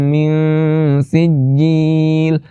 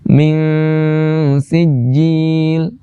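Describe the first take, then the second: No difference in how they are said.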